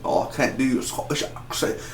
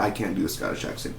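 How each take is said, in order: First: Hushed, croaked attempt at Scottish; bad Scottish accent. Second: Said in the usual way. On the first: Shown as a demonstration. Reviewer failing at Scotty's accent, hammed-up Scottish. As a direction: try a Scottish accent, mostly voiceless and soft.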